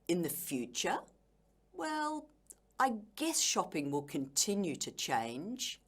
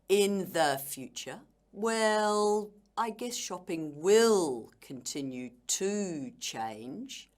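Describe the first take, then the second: First: The stress falls on the content words. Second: The stress falls on the grammar words. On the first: The meaning comes across clearly. The speaker calls it right. "Can you see how the words that you stress help you enhance your meaning?" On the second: The meaning is unclear. The speaker calls it wrong. "this would be very unnatural and also unclear"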